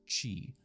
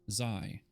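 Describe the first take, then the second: First: The word begins with a ch-like sound. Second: The word begins with a buzzing z sound. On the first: The speaker calls it right. "It's Chi" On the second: The speaker calls it wrong. "I want to say in my head Zai, but that's not true"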